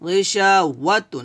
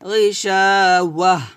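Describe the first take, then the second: First: The word ends with a -tun sound. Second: The word ends with a soft -h sound. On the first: The reading continues without stopping. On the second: The reader stops at this word.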